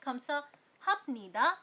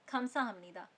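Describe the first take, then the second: First: It is said with a b sound before nida. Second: It is said with an m sound before nida. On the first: This is how it is written. "हम लोग लिखते हैं" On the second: This is how it is spoken. "लेकिन उसको प्रोनाउंस करते हैं"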